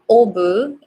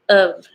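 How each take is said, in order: First: The word has a full rounded vowel. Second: The word has a weak schwa vowel. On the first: The speaker calls it wrong. "it's not obu" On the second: The speaker calls it right. "It's the schwa"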